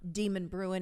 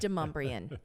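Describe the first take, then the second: First: It sounds like the words 'demon bruin'. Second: It sounds like 'de-mum-bree-un'. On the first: The speaker calls it wrong. "Demon Bruin is not one of them" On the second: The speaker calls it right. "It is Demumbrian"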